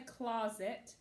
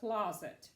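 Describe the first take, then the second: First: The second syllable has a full vowel. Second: The second syllable has a reduced uh vowel. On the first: The speaker calls it wrong. "I don't say closet. Some people do" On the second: The speaker calls it right. "you pronounce it closet ... this E sounds like uh"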